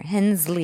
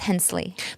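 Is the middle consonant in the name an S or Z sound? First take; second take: Z; S. First: The middle consonant is a buzzing Z sound. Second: The middle consonant is a hissing S sound. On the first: The speaker calls it wrong. "everybody else is putting a Z in there" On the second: The speaker calls it right. "the S is very prominent"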